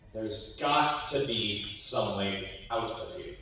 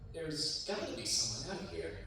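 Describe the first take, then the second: First: It is said very loudly. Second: It is said very softly.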